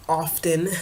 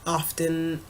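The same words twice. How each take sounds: The two takes are said the same way.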